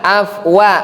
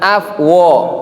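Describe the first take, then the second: First: The vowel after w is an open a. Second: The vowel after w is a rounded o. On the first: The speaker calls it right. "wa ini wa" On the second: The speaker calls it wrong. "bukan af wo"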